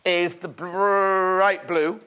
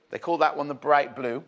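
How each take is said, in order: First: "bright" with a long rolled R, drawn out loudly. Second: Said in the usual way. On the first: Shown as a demonstration. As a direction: trill and stretch the R of "bright" before "blue". Playfully rolls the colour name.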